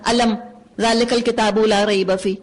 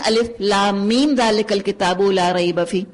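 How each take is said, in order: First: The opening is read as one word, alam. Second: The opening is read as three letter names. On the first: The speaker calls it wrong. "कोई नहीं पढ़ता" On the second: The speaker calls it right. "सब कहते हैं"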